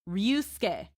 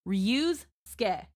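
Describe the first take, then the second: First: The first syllable is softened and blended together. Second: The first syllable is a full 'reuse' sound. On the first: "soften the re" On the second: "Take the words reuse and take ske"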